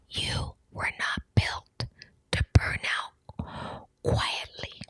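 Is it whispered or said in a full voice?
whispered. It is said in a soft whisper.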